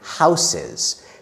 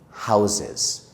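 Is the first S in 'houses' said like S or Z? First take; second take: S; Z. First: The first s is a hissing s sound. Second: The first s is a buzzing z sound. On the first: The speaker calls it wrong. "we don't say houses. It's not wrong to say that" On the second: The speaker calls it right. "said it like me, houses. It just sounds more natural"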